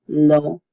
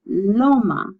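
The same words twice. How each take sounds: First: "loma" broken into lo, then ma; syllable by syllable. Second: Said in the usual way. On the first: Shown as a demonstration. Teacher breaking down a new word, "loma" said syllable by syllable. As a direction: pause between the two syllables of "loma". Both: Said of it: "you separate the two".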